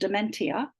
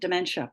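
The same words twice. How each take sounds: First: The I is sounded as its own syllable. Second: The I is silent, merged into a 'sh' sound. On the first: The speaker calls it wrong. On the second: The speaker calls it right. "That's a non-syllabic I"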